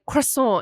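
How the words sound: It is pronounced the French way. The speaker is trying too hard. "me trying to say like croissant"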